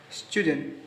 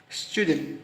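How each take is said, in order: Both takes have the same delivery.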